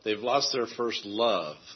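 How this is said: The stress falls on the word love. They have lost the excitement and feeling of their love. "if you emphasize the word love"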